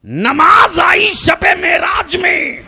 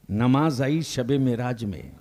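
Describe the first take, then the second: First: High, drawn-out shouted proclamation; full-force preaching. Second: Said in the usual way. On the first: Real, not acted. Preacher proclaims the night of Meraj to the congregation, full-force preaching. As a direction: cry it out slowly across the crowd.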